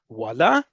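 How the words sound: The word is said with a questioning tune. It asks whether something is really true. "question mark at the end of it, voila means really"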